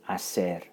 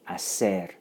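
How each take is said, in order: Both takes have the same delivery.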